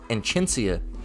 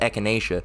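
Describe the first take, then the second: First: The word begins with an 'en' sound. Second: The word begins with a plain 'e' sound. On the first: The speaker calls it wrong. "I thought that shit was pronounced Enchinacea" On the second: The speaker calls it right. "I just re recently found out that's echinacea"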